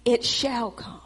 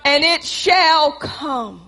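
First: "It shall come" repeated much softer; soft echo. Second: "shall" drawn out slowly, "and it shall come"; stress on shall. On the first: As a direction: drop the echo to a hush. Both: Shown as a demonstration.

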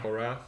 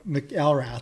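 First: McElrath said as MACK-ul-rath; own pronunciation. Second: McElrath misread as mick-EL-rath; mispronounced surname. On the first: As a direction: stress the first syllable of McElrath, "MACK". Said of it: "that's how I was raised saying it". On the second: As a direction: say McElrath as "mick-ELL-rath", stress on the middle. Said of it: "people would think it was Mick". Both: Shown as a demonstration.

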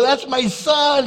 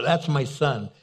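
First: High, loud, drawn-out proclamation; excited proud shout. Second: Said in the usual way. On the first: Retold or imitated. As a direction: announce it to the whole room, thrilled. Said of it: "I was so excited".

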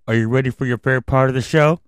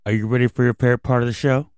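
First: Put-on kids host asking again, brighter; overbright kids party host. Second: Put-on fast, hyped kids host call; rally the kids fast; overbright kids party host. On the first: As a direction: hype the crowd once more. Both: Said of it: "I can't hear you".

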